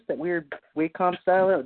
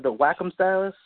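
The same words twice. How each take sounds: First: "Wacom" said WAY-kom; common pronunciation. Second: "Wacom" said WACK-um, short A; self-correct "Wacom" to "whack-um"; corrected pronunciation. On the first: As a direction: say "Wacom" with a long A, like "way". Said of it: "everyone I know says Wacom". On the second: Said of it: "It's actually Wacom". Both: Real, not acted.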